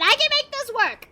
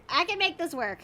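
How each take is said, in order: First: Raised pitch, anxious self-encouragement; higher nervous pep talk. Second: Said in the usual way. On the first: Real, not acted.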